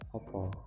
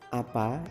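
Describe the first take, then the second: First: Both vowels are pronounced as a rounded o. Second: Both vowels are pronounced as an open a. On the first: This is the Javanese reading. "A itu dibaca O" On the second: This is the Indonesian reading. "Apa Indonesia"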